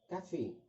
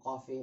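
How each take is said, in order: First: The first syllable sounds light and thin. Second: The first syllable sounds heavy and deep. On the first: The speaker calls it right. "مرققة شوية في النطق" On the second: The speaker calls it wrong. "مش بنقول قافي"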